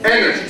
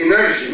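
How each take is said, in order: First: "Energy" with a strong opening syllable, falling after; stress on first syllable. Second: "energy" with a weakened first syllable, stress pushed later; wrong stress on energy. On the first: Teacher correcting the students' mistake, first-syllable stress on "Energy". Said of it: "Stress on the first syllable". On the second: Teacher warning students what not to say, mis-stressed "energy". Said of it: "Don't say energy". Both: Shown as a demonstration.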